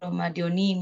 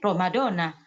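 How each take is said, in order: First: The word ends with an 'ee' vowel. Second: The word ends with an 'ah' vowel. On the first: The speaker calls it wrong. "harusnya kan tidak boleh dikasroh" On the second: The speaker calls it right. "Kita aja bacanya Ramadhana"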